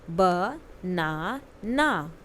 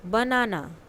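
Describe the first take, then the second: First: "banana" stretched, every syllable apart; very slow model word. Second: Said in the usual way. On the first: Shown as a demonstration. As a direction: model it very slowly to copy. (बहुत धीरे, हर अक्षर अलग "बनाना") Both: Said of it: "listen to your teacher and say the following word".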